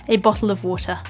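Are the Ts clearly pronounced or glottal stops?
pronounced. The Ts are clearly pronounced, RP style.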